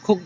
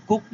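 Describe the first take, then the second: First: "কুক" with a puff on the first k; airy burst opening "কুক"; aspirated K. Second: "কুক" with a plain k, no puff; dry k opening "কুক"; unaspirated K. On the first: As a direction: say "কুক" as khuk. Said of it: "এটাকে কুক বলে ফেলবে". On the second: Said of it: "কুক না বলে". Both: Shown as a demonstration.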